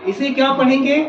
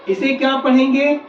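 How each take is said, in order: No difference in how they are said.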